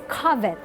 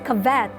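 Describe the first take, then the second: First: It uses the standard dictionary pronunciation. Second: It uses the common Filipino pronunciation. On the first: The speaker calls it right. "According to the dictionary, it's covet" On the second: The speaker calls it wrong. "you don't say covet"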